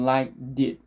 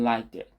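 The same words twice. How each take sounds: First: The words are joined with a strong, forceful link. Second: The words flow together softly in one breath. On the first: The speaker calls it wrong. "이렇게 강하게 연결되지 않고" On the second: The speaker calls it right. "흘러가는 호흡에 걸쳐서 그냥"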